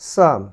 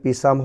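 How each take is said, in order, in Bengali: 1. শব্দটি "s" ধ্বনি দিয়ে শুরু হয়। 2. শব্দটি উচ্চারিত "p" দিয়ে শুরু হয়। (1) "হয়েছে সাম" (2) "পিসাম হয়নি"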